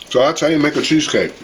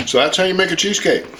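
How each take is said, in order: First: Words muffled by a mouth full. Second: Said in the usual way. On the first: Real, not acted. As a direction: talk around a bite of food. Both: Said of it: "I'm talking with my mouth full".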